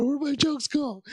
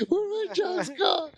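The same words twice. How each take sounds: First: High, panicky whine; mock panic. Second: Higher and slower, a near-sobbing whine; mock crying panic. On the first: Comic panicking to himself before stage, high whine. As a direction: fret aloud, a hammed-up panic. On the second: Comic panicking to himself before stage, slow sobbing whine. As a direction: drag it out like you are about to cry.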